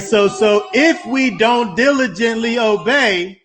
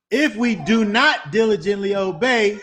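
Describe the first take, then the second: First: Said in the usual way. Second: "not" hit hard, voice straining toward a cry; stress on not. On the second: Shown as a demonstration. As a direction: lean on "not" in "if we do not diligently obey" with rising urgency.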